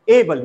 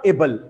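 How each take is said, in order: First: "able" said A-ble; weight the opening vowel of "able"; stress on first syllable. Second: "able" said a-BLE; wrong stress, second syllable. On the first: Teacher modelling correct able, stress on first syllable. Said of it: "stress falls on the first syllable". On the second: Teacher showing what not to say, stress on second syllable. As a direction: shift the weight to the end of "able". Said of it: "not able". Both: Shown as a demonstration.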